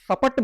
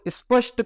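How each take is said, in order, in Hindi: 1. इसे 'sa-pat' की तरह बाँटा जाता है, इसमें कोई समूह नहीं है। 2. इसकी शुरुआत 'sp' समूह से होती है और अंत 'sht' से होता है।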